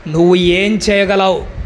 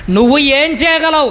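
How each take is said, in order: First: Said in the usual way. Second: Higher, pressing repeat of the question; insistent challenge. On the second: Real, not acted. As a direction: challenge the congregation with raised pitch. (గొంతు పెంచి సవాలు చేస్తూ)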